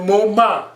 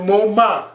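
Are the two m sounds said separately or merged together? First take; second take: merged; merged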